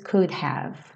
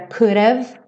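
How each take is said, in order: First: Both words are said fully and separately. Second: It is shortened to one quick reduced form. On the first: "mas ele tem tempo, então ele diz could have" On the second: "ele não reduz para could have"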